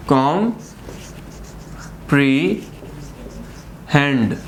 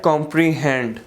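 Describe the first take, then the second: First: comprehend very slowly as कॉम, pre, hand; syllable by syllable. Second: Said in the usual way. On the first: Shown as a demonstration. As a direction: leave long silences between the three parts of comprehend. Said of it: "तीन हमारे पास sections बने". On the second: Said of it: "third syllables".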